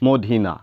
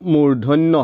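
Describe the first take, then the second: First: The word sounds like 'modhina'. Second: The word sounds like 'murdhonyo'. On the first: The speaker calls it wrong. "অধিকাংশই ভুল কৰে" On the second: The speaker calls it right. "মূৰ্ধন্য হ'ব লাগে"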